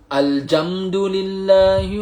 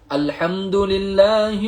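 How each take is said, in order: First: The consonant after 'al' is a j sound. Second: The consonant after 'al' is an h sound. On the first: The meaning changes to frozen or hard. The speaker calls it wrong. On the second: All praise belongs to God. The speaker calls it right.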